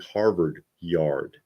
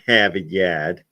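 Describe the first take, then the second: First: It is said in his milder Boston accent. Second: It is said in a broad Revere/Southie accent.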